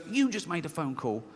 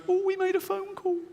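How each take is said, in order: First: Level, reasoning rebuttal; rational inner voice. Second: Very high, mocking squeak; irrational inner voice. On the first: Acted. Rational side corrects the fearful one, plainly dismissive. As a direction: answer in an ordinary voice, unimpressed. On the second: Irrational side alarmed by his phone call, squeaky. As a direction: squeal it as the suspicious side of the mind. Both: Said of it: "This one goes".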